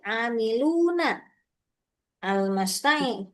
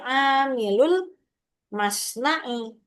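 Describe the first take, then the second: First: An 'n' sound follows 'amilu' before 'al'. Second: No 'n' sound; 'amilu' links straight into 'l'. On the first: This is the underlying form before the change. "asli katanya ini" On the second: The two words are joined as one possessive phrase. "nunnya itu dihapus"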